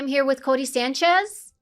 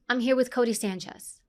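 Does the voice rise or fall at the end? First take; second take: rise; fall. First: The voice rises at the end. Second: The voice falls at the end.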